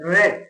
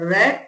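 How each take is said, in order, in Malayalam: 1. ഈ സ്വരം ഹ്രസ്വമായ 'e' ശബ്ദമാണ്. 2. ഈ സ്വരം ഹ്രസ്വമായ 'e' ശബ്ദമാണ്.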